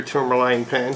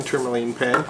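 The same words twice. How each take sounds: First: "tourmaline" with a long I in its last syllable; "tourmaline" ending in "line". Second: "tourmaline" with a long EE in its last syllable; "tourmaline" ending in "leen". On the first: Reviewer naming the pen that the ink matches, "tourmaline" ending in "line". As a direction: pronounce "tourmaline" TOUR-muh-line. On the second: Reviewer giving the pen's other pronunciation right after, "tourmaline" ending in "leen". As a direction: pronounce "tourmaline" TOUR-muh-leen. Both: Shown as a demonstration. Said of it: "however you may want to pronounce it".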